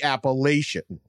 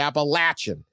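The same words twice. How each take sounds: First: It uses the northern regional pronunciation. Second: It uses the southern regional pronunciation. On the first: This is how people in the north say it. "Up there, they call it the Appalachian" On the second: This is how people in the south say it. "But down in the Carolinas, they call it the Appalachian"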